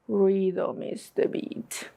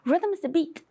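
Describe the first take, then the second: First: The phrase is spoken at a slow pace. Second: The phrase is spoken at a fast pace. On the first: "And slow" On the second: "Let's say it faster"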